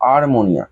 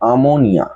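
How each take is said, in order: First: An r sound is said in the first syllable. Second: No r sound is said in the first syllable. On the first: This is how the word is written. "লিখবো যখন, তখন কিন্তু আরমোনিয়া" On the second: This is how the word should be spoken. "উচ্চারণ যখন করব তখন কিন্তু আমোনিয়া"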